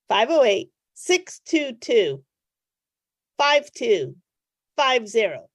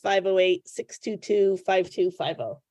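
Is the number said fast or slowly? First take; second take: slowly; fast. First: The number is said slowly. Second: The number is said fast.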